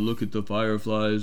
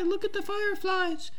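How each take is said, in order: First: It is said in a deep voice. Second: It is said in a high-pitched voice. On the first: A male character is speaking. "John is deep and deep, deep voice" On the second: A girl character is speaking. "Michelle's like, hi"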